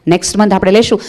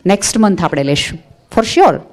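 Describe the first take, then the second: First: next month આપણે લેશું with rising લેશું; reassuring rise. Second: next month આપણે લેશું said softer, gentle promise; softly promising. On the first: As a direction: lift the end to reassure. (લેશું પર ચઢતો સૂર, ખાતરીથી) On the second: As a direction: soothe the child quietly. (ધીમેથી, પ્રેમથી વચન) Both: Shown as a demonstration. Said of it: "શીખવો".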